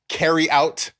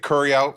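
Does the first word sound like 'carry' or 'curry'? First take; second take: carry; curry. First: The first word sounds like 'carry'. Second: The first word sounds like 'curry'. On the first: This is the outsider way of saying it. The speaker calls it wrong. "they don't say carry out" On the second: This is the local D.C. way of saying it. The speaker calls it right. "They say it correctly. They say curry out"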